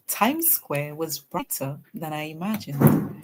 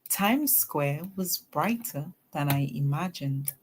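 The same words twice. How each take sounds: First: It is read at a faster pace. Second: It is read at a slower, steady pace.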